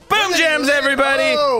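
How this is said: The greeting is said with lively excitement. The speaker calls it right. "say it with excitement"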